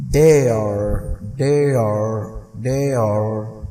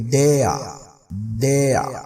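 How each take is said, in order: First: American "dare" with the final R pronounced; American, sounded R. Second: British "dare" with the final R left silent. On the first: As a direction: finish "dare" on a clear R. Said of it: "जो American वाले हैं वो कहेंगे". ("dare" American ढंग से, आख़िर में आर के साथ) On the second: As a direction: end "dare" on an open vowel, no R sound. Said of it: "British वाले वो आर नहीं पढ़ते एंड में". ("dare" ब्रिटिश ढंग से, आख़िरी आर के बिना) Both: Shown as a demonstration.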